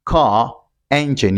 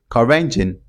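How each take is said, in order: First: 'car', pause, 'engine', with no linking R; unlinked words. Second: 'car engine' joined as 'ca-rengine'; linking R. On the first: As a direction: say 'car engine' slowly as two separate words. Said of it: "You have to say". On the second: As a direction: carry an R from 'car' into 'engine'. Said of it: "pronounce it and link it". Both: Shown as a demonstration.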